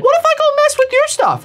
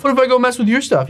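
First: High, fast, mocking squeak; squeaky teasing voice. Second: Said in the usual way. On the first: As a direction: tease him in a silly high voice. Taunting rival, repeated line.

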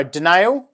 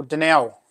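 First: "Danielle" with a long AY, di-NAYL; name read as di-NAYL. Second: "Danielle" with a short E, di-NELL; name read as di-NELL. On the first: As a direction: offer "Danielle" as di-NAYL, like nail. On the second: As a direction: offer "Danielle" as di-NELL, like bell. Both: Shown as a demonstration. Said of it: "Let me know. Danielle or Danielle?".

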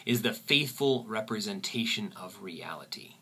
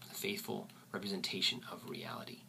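First: Said in the usual way. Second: Soft whispered repeat. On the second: Shown as a demonstration. Teacher repeats the definition in a soft whisper. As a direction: whisper it again, much softer.

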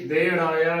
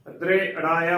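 First: ਦੇ ਅੜਾਇਆ with no r after the d; wrong pronunciation. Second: ਦ੍ਰੇ ਅੜਾਇਆ with the r sounded right after the d; correct pronunciation. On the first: Teacher warning against the error, ਦੇ ਅੜਾਇਆ without r. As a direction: drop the r, plain "de" in ਦੇ ਅੜਾਇਆ. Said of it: "ਗਲਤ ਉਚਾਰਨ ਹੋਵੇਗਾ". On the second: Teacher showing congregation the correct word, ਦ੍ਰੇ ਅੜਾਇਆ with r sounded. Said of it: "ਦ੍ਰੇ ਅੜਾਇਆ ਉਚਾਰਨ ਕਰਨਾ ਹੈ". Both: Shown as a demonstration.

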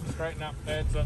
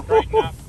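First: Said in the usual way. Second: Loud, high call to the driver; shouted instruction. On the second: Real, not acted. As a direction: shout it across the track. Spotter shouting directions.

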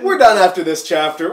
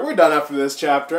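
First: Loud, fed-up declaration; loud, fed-up announcement; exasperated announcement. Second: Rushed, fast mutter of the same line; fast, hurried repeat; quick repeat. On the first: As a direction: call it out to end the reading. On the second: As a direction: rattle it off fast. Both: Real, not acted.

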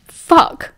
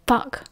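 First: Higher, more forceful burst of swearing; shouted curse. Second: Muttered curse. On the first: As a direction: shout it out in frustration. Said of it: "he shouted". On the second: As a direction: mutter it softly under your breath. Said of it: "he muttered". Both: A narrator's reading.

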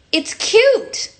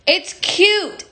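First: High, sweet pop star coo; sugary high pop star voice. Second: High pop star voice with falling end; a lighter pop diva coo. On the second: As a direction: repeat the coo, settling down. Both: Retold or imitated. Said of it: "my [name] impression".

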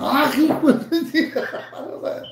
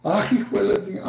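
First: High, slow curse through laughter; laughing mock curse. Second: Said in the usual way. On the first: Shown as a demonstration. Streamer cursing rival for fun, laughing. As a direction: drag it out while laughing.

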